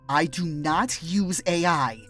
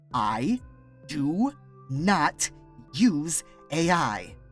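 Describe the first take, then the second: First: It is said at normal speed. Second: It is said very slowly.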